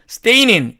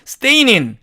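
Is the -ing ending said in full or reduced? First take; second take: reduced; reduced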